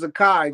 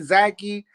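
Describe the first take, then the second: First: The last syllable rhymes with 'Makai'. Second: The last syllable does not rhyme with 'Makai'. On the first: This is how the name is really said. The speaker calls it right. "just like the name Makai" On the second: This is a common mistaken way to say the name. The speaker calls it wrong. "Some people think it's"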